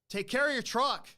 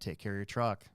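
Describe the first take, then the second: First: It is said loudly. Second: It is said quietly.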